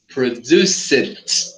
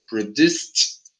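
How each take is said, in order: First: The ending is said as an extra syllable. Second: The ending is a soft sound, no extra syllable. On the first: The speaker calls it wrong. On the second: The speaker calls it right.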